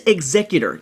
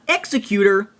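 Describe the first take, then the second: First: It does not sound like 'executioner'. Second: It sounds like the start of 'executioner'. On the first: The speaker calls it right. "it is Executor" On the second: The speaker calls it wrong. "not Executor, because that would be an Executioner"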